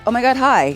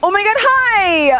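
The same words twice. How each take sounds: First: It is said calmly at a normal pitch. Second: It is said excitedly at a higher pitch. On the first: "in my normal voice, just greeting you without like a lot of excitement" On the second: "One sounds cognizantly more excited and friendly"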